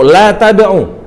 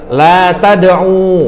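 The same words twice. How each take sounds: First: The final vowel is cut short. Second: The final vowel is held long. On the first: Do not pray or call. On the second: You do not pray or call.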